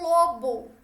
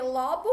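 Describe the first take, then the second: First: "lobo" with closed O, like "lô-bo". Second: "lobo" with open O, like "ló-bo". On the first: Teacher contrasting animal with brain part, closed O. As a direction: say "lobo" rounding the stressed O closed. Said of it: "de animal". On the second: Teacher contrasting brain part with animal, open O. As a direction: say "lobo" opening the stressed O. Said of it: "que é a partezinha do crânio". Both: Shown as a demonstration.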